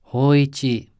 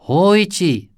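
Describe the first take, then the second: First: Calling out. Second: High, loud savage yell; a savage ghostly shout of Hoichi. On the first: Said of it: "the deep voice called". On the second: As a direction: roar his name savagely. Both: A narrator's reading.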